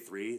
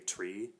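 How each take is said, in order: First: The word begins with a th sound. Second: The word begins with a t sound. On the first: "they won't say three" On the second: "they'll say tree"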